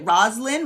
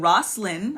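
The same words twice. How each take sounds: First: The middle consonant sounds like a z. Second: The middle consonant sounds like an s. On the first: The speaker calls it right. "give the Z" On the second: The speaker calls it wrong. "I was saying Roslyn, I think, from just the spelling"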